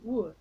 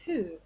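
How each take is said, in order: First: It begins with a rounded w sound. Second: It begins with a breathy h sound. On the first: The speaker calls it wrong. "and not who" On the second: The speaker calls it right. "So the word is who"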